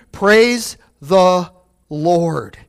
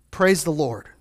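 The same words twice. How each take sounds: First: Slow drawn-out praise. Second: Said in the usual way. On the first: Shown as a demonstration. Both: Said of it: "Do you hear me?".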